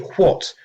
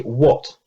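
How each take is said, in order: First: It begins with a breathy 'hw' sound. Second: It begins with a plain 'w' sound. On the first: This is the older pronunciation most speakers no longer use. "most English speakers don't say what" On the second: This is how most speakers say it today. "they say what"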